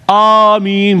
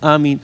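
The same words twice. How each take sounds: First: The word is said loudly and forcefully. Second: The word is said softly and faintly. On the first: The worshippers understand the prayer's words. "बड़ी जोर जोर से" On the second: The worshippers do not understand the prayer's words. "हल्की हल्की"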